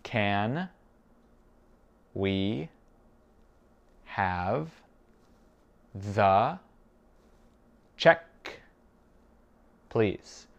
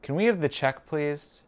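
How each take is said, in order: First: Very slow, long pauses between words; spaced-out language-drill question. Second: Higher-pitched, flowing question; whole question run together, raised pitch; connected phrase. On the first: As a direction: isolate each word for a learner. Teacher repeats it word by word. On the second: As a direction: ask it in one go, pitched up. Teacher gives whole phrase first. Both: Shown as a demonstration.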